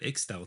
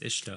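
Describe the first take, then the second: First: The middle consonant sounds like 'ks'. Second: The middle consonant sounds like 'sh'. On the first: The speaker calls it wrong. "I remember I said Ixtal too" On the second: The speaker calls it right. "It's Ishtal"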